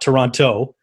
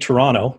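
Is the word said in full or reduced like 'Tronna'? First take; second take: full; reduced. First: The word is said in full, every syllable clear. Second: The word is reduced, sounding like 'Tronna'. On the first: The speaker sounds like an outsider. The speaker calls it wrong. "not Toronto" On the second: The speaker sounds like a local Canadian. The speaker calls it right. "You say Toronto"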